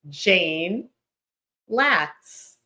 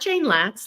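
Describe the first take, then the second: First: A short pause separates the two names. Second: The two names run together without a pause. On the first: The speaker calls it right. "A simple pause" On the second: The speaker calls it wrong. "not Jane Latz like it's one name"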